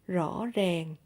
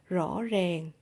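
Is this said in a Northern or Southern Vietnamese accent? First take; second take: Southern; Southern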